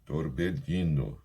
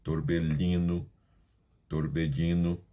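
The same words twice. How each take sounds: First: Torbellino slowly, with the ll as lh; Spanish double L. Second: Torbellino with the ll said as a d sound; dropped double L. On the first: Teacher showing students the double L sound. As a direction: say Torbellino slow with the ll like Portuguese lh. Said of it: "Se você quiser falar torbellino, tá perfeito". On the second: Teacher showing students the regional variant. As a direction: say torbellino with a d in place of ll, like many countries. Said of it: "um formato de torbellino". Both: Shown as a demonstration.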